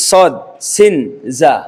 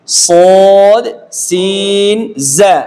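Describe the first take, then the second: First: সদ, সিন, জা said short, with no held vowel; letter names without elongation. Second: SOD and SIN held long on a steady tone, জা shorter; drawn-out letter names. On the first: Teacher showing the common mistake, সদ, সিন, জা left unstretched. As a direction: cut the stretch from সদ, সিন, জা. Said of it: "হরফ এরকম না". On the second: Teacher introducing three letters, সদ and সিন drawn out. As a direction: stretch সদ and সিন, keep জা brief. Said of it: "স্বতন্ত্র উচ্চারণের টান আছে". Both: Shown as a demonstration.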